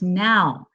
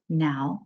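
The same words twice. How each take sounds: First: The word is said firmly, with conviction. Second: The word is said softly, without force. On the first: The command is meant right away. The speaker calls it right. "now means now" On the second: The command is not really meant. The speaker calls it wrong. "It's not now"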